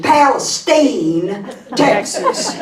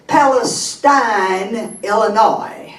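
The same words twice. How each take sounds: First: "Palestine" ending like "steen"; Texas pronunciation. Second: "Palestine" ending like "stein"; Illinois pronunciation. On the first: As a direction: say "Palestine" with a long EE in the last syllable. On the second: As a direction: say "Palestine" with a long I in the last syllable. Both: Shown as a demonstration.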